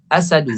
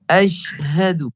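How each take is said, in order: First: The word is said without the h sound. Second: The word is said with the h sound. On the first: The speaker calls it wrong. "Biasanya huruf ha ni hilang... Dia bukan asadu" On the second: The speaker calls it right.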